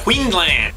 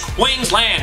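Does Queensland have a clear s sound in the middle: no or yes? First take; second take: no; yes. First: The middle of the word lacks a clear s sound. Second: The middle of the word has a clear s sound. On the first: The speaker calls it wrong. "he pronounced Queensland wrong" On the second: The speaker calls it right. "Aussie say Queensland. They put an S in it"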